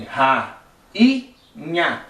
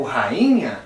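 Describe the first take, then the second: First: "ra, i, nha" with a clear pause between syllables. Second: Said in the usual way. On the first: Shown as a demonstration. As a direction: break "ra, i, nha" into three separate syllables. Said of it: "por exemplo, rainha, tu tem". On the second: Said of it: "tu tem ra, i, nha".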